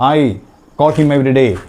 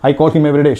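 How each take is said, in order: First: It is said at a slow, careful pace. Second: It is said at a very fast pace. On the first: The speaker calls it wrong. "പക്ഷേ ഇങ്ങനെയല്ല" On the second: The speaker calls it right. "വളരെ ഫാസ്റ്റായിട്ട് വേണം"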